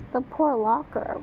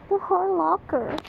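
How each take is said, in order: First: Said in the usual way. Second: Higher, whiny mock sympathy; mock pity. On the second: Real, not acted. Reacting to the story, pitying the locker. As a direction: moan it for the locker.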